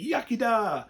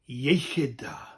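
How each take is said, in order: First: The first word sounds like English 'yucky'. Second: The first word has a Welsh throaty sound. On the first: It mocks the Welsh toast. The speaker calls it wrong. "a few people that think it's funny to say yucky da" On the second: It is the proper Welsh toast. The speaker calls it right. "the proper term is iechyd da"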